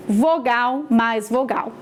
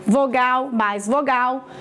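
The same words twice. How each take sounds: The two takes are said the same way.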